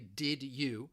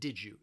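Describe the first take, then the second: First: The D and Y are said as separate sounds. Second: The D and Y blend into a J sound. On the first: "This does not mean you're always going to hear this" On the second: "often when people are asking this question"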